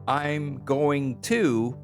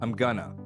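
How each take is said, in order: First: 'Going to' is said in full. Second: 'Going to' is shortened to 'gonna'.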